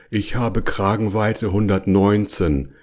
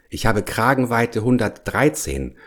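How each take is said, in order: First: Understated, resigned bear's grumble. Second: Higher-pitched, lightly voiced bear; a mild, higher complaint from a story bear; complaining bear. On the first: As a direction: grumble it evenly, giving in. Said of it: "schüttelte den Kopf und brummte". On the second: Bear explains he cannot fit. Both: A narrator's reading.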